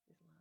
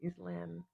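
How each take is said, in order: First: "Islam" said iz-LAH, the a open as in father; "Islam" clipped short on an open ah; Islam with long ah. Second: "Islam" said iz-LAM, the a as in cat; "Islam" with a flat a as in lamb. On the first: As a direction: test "Islam" with a broad ah vowel. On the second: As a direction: test "Islam" with the short cat vowel. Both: Shown as a demonstration. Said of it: "what sounds cooler for the Australian accent?".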